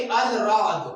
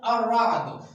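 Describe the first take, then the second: First: अल राद with the l sounded, al then raad; wrong reading. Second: अर्राद read joined, ar-raad, lam silent; correct reading. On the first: Teacher showing pupils the mistaken reading, lam pronounced. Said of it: "अल राद अगर पढ़ा तो गलत". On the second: Teacher showing pupils the right reading, lam silent. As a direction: double the r in अर्राद, no l sound. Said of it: "हम लोगों ने इस तरह नहीं पढ़ा". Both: Shown as a demonstration.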